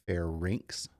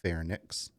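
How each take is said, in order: First: The vowel comes before the n sound. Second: The n sound comes before the vowel. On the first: The speaker calls it right. "The Y is before the N, so it's pronounced pharynx" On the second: The speaker calls it wrong. "not pharynx"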